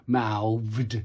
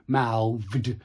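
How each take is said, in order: Both takes have the same delivery.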